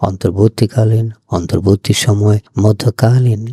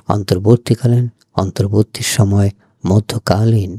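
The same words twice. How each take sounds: The two takes are said the same way.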